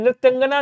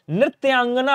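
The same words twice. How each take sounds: First: नृत्यांगना as "nrit-yangana", short middle a; wrong short vowel. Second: नृत्यांगना with long "yaan"; correct long vowel. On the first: Teacher showing students the error, short middle in नृत्यांगना. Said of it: "नहीं होता है". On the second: Teacher correcting students, long "yaan" in नृत्यांगना. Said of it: "होता है". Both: Shown as a demonstration.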